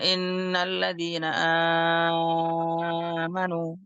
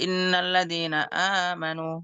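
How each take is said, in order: First: The first vowel of amanu is held very long. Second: The first vowel of amanu is held only briefly. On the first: This follows one recognized reading tradition. "bisa dibaca enam harokat" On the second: This follows another recognized reading tradition. "mat badal dua rokat"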